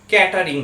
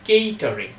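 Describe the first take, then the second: First: The first vowel is short, like 'cat'. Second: The first vowel is long, like 'cake'. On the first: The speaker calls it wrong. "আমরা এই ওয়ার্ডটার উচ্চারণ করে থাকি ক্যাটারিং বলে" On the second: The speaker calls it right. "ঠিক উচ্চারণ হবে কেইটারিং"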